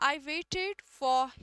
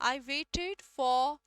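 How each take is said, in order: Both takes have the same delivery.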